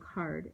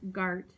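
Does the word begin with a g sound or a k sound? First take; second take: k sound; g sound. First: The word begins with a voiceless k sound. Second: The word begins with a voiced g sound. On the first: The speaker calls it right. "the k sound in card is a voiceless velar stop" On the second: The speaker calls it wrong. "the G is a voiced um, velar stop"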